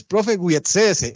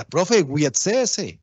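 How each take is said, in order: First: "Profe, huietsese" stretched out slowly, each syllable held; quoting a student. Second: "Profe, huietsese" drawn out very slowly, every syllable stretched; quoting a student. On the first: Teacher repeats the student's creole phrase for the class, slow and deliberate. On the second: Teacher slowly repeats a student's creole request to the class, stretched out. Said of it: "y me decía". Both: Retold or imitated.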